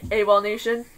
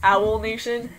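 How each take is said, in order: First: The first word is not said like "owl". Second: The first word is said like "owl". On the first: The speaker calls it right. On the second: The speaker calls it wrong.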